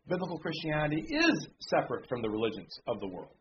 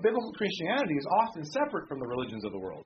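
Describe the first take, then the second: First: "is" stressed in place of "is often". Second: Said in the usual way. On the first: Real, not acted. Preacher correcting his own wording, stress on "is". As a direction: correct it by leaning firmly on "is". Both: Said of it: "often is the wrong word to use".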